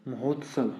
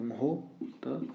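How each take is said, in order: First: Said in the usual way. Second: "महोत्सव" slowly in pieces, long "हो", then "त" and "सव"; teacher's drawn-out, softer breakdown of "महोत्सव"; broken into syllables. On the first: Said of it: "क्या बना फिर ये". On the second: Shown as a demonstration. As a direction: sound out "महोत्सव" slowly and softly, pausing between syllables. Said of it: "ओ की मात्रा आएगी यहाँ पे".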